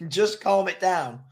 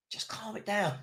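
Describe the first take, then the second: First: Laughing plea. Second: Much softer, almost to himself; soft repeated plea. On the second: Fan begging his team to settle, said softly to himself. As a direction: say it under your breath to the team. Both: Real, not acted. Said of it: "why don't we just calm it down".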